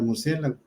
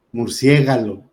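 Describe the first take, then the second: First: Said in the usual way. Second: "murciégalo" with g and l swapped, stress on "cié"; mispronounced word. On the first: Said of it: "ahí ya cambiamos las letras". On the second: Shown as a demonstration. Teacher showing students a common error, mispronounced "murciégalo". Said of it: "pronunciar incorrectamente la sílaba tónica".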